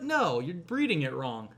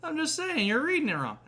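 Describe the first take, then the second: First: Said in the usual way. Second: Put-on much higher, whining kid insisting; whiny kid. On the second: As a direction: whine it like a stubborn grandson.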